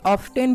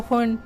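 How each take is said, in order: First: The t sound is pronounced. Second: The t sound is silent.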